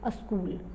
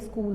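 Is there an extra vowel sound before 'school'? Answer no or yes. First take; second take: yes; no. First: A short vowel is added before the s sound. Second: The word starts directly with the s sound. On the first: "they say a school" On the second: "they don't say school"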